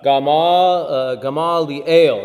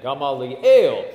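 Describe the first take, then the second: First: Gamaliel spelled out slowly, syllable by syllable, Gama-li-el; slow teaching pronunciation of Gamaliel; careful pronunciation. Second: Gamaliel said slowly with the stress on "ale" near the end; Gamaliel, lean on the "ale" syllable; slow, clear Gamaliel as the teacher's model; model pronunciation. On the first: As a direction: sound out Gamaliel slowly, stress on the last part "el". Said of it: "that's your accent mark right there". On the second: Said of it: "So that's how you would say that". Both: Shown as a demonstration.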